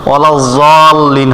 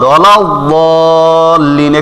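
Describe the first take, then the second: First: The consonant is said with a z-like sound. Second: The consonant is said with a d-like sound. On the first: The speaker calls it wrong. "অনেকে মনে করে ওয়ালাউ জলিন হবে, হ্যাঁ ওভাবে না" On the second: The speaker calls it right. "বদ হবে"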